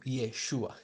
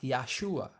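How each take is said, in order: First: The first syllable has an 'e' vowel. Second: The first syllable has an 'a' vowel. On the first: It keeps the feminine form. The speaker calls it right. "el nombre sigue siendo en femenino" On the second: It is built on the masculine root. The speaker calls it wrong. "porque usan la raíz Yasha, pero eso no es la forma correcta"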